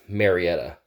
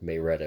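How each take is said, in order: First: It is said the general, non-local way. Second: It is said the local Marietta way.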